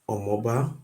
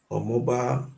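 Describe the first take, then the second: No difference in how they are said.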